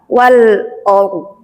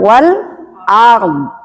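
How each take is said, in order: First: The vowel is pronounced as a dark O. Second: The vowel is pronounced as an open A. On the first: The speaker calls it wrong. "O kebacanya" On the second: The speaker calls it right. "bukan lagi penyebutan A"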